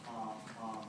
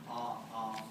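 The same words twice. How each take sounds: No difference in how they are said.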